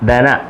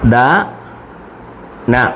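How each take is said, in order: First: The two syllables are joined and said quickly. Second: The two syllables are said slowly and apart.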